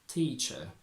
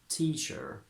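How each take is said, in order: First: Said in a British accent, R silent. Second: Said in an American accent, R pronounced. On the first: "From American to British" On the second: "From American to British"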